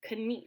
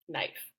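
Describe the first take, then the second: First: The vowel is a long 'ee' sound. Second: The vowel is an 'eye' sound. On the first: This is the older pronunciation. "in Middle English that would have been correct. Knief, actually" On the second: This is the modern pronunciation. "you say it the way that you say it now, which is knife"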